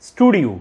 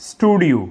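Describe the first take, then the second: Both takes have the same delivery.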